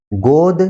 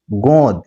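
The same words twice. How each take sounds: First: गोद with a plain, un-nasalised o; oral vowel. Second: गोद said as गोंद, o through the nose; nasalised vowel. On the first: Teacher reading a minimal pair, गोद with oral vowel. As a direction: keep the o of गोद out of the nose. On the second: Teacher reading a minimal pair, गोद with nasalised vowel. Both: Shown as a demonstration. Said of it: "जो अनुनासिकता यहाँ पर है".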